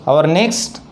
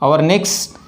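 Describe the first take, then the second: Both takes have the same delivery.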